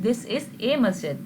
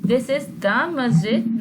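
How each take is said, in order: First: "a" stressed as a separate word. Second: "the" drawn out and stressed, slow phrase; slow down and lean hard on "the". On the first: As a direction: lean on "a" to contrast it. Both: Shown as a demonstration. Teacher contrasts the two articles.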